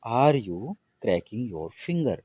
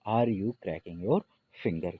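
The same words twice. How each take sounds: First: Slow, careful dictation; slow model sentence. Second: Repeated slowly and more softly; slow repeat, a little softer. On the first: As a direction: spell it out slowly for students. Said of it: "उंगली चिटकाना". (धीमा उदाहरण वाक्य) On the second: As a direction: say it once more, gently and slowly. (धीमी, थोड़ी नरम दोहराई) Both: Shown as a demonstration.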